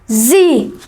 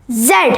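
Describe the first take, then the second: First: It is said the American way, as in the USA. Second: It is said the British way, as in the UK.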